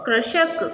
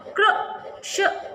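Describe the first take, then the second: First: Said in the usual way. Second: कृषक drawn out very slowly, part whispered; teacher stretching कृषक; slow sounding out. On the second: Shown as a demonstration. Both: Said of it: "इसका जो उच्चारण होता है".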